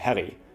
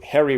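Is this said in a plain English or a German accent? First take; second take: German; English. First: It is said in a German accent. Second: It is said in a plain English accent.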